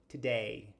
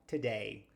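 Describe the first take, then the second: Both takes have the same delivery.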